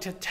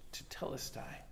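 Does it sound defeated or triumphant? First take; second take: triumphant; defeated. First: It is yelled in triumph. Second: It sounds weary and defeated.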